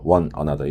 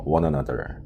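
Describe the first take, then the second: First: "one another" 끊어서; 단어를 떼어 "one another"; choppy one another. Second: "one another" 붙여서 워너나더; 연음으로 부드럽게 "one another"; linked one another. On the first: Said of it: "one another 이렇게 읽지 마시고요". (끊어 읽는 틀린 예) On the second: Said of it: "영국식 발음은 one another 이렇게". (연음 "one another") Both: Shown as a demonstration.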